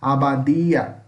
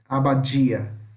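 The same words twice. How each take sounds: First: The d is a plain d sound. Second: The d is a hushing dj sound. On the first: This is how it is said in Spanish. "Em espanhol, a gente fala como se fosse um D" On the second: This is how it is said in Portuguese. "esse som meio chiado"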